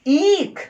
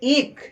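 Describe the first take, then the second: First: The first vowel is drawn out long. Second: The first vowel is short and clipped. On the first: "पंसेशन इक में करेंगे, ईख, तब ये ईख होगा" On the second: "खाली ई बोल दिए, थोड़ा सा ई ख, तो ये ह्रस्व रहा"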